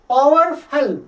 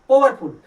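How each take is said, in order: First: The first vowel glides as an 'ow' diphthong. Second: The first vowel is a single plain 'oh' sound. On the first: The speaker calls it right. "Real जब करेंगे तो ये भी आपका diphthong आउ" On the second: The speaker calls it wrong. "Hindi में अगर Hindu pronunciation करेंगे तो पोवरफुल"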